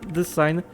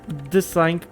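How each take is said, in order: Both takes have the same delivery.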